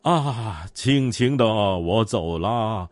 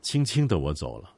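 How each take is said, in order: First: It is recited in an overdramatic, gushing way. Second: It is recited in a light, gentle way.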